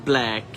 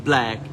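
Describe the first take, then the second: Both takes have the same delivery.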